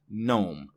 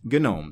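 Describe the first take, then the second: First: The G at the start is silent. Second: The G at the start is pronounced. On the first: It names the ordinary English word. "The G is silent" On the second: It names the desktop environment, an acronym. "It is, in fact, GNOME"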